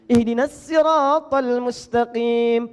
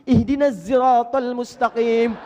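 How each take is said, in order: First: Sirat begins with a light, plain s sound. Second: Sirat begins with a buzzing z sound. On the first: "pakai sin" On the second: "As-sahih, pakai zai"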